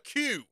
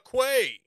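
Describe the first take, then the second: First: The word sounds like plain 'kyoo'. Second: The word sounds like 'kway'. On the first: This is the normal name. The speaker calls it right. "It's called a Q" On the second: The speaker is trying to be cute. The speaker calls it wrong. "Why is he calling it a Quay? Because he's trying to be cute"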